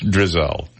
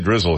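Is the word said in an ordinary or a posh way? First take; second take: posh; ordinary. First: The word is said in a posh, refined way. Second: The word is said in an ordinary, plain way. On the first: The speaker wants to sound more refined. The speaker calls it right. "we're a little more highfalutin than that, so it's drizzle" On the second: This is the common, everyday way to say it. The speaker calls it wrong. "We don't say drizzle here"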